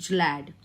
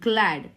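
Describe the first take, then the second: First: It begins with a soft J sound. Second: It begins with a hard G sound. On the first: The speaker calls it wrong. "not glad" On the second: The speaker calls it right. "G after L, and L is consonant, so it's glad"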